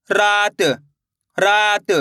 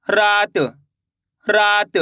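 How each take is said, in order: Both takes have the same delivery.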